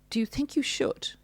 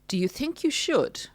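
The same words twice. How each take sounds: First: Higher, with a questioning rise on you; mock narcissist, rising doubt. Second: Condescending narcissist. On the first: Narcissist undermining partner, patronising rising question. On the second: Retold or imitated. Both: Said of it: "Implying it's not a good decision".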